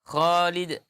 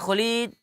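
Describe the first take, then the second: First: The first vowel is held long. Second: The first vowel is short. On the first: The speaker calls it right. "dia manggil Khalid" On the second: The speaker calls it wrong. "ndak seperti itu"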